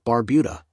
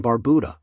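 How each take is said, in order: First: "Barbuda" said bar-BYOO-da; respelled pronunciation. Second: Said in the usual way. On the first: Shown as a demonstration. Narrator reading out the pronunciation guide, "Barbuda" as bar-BYOO-da.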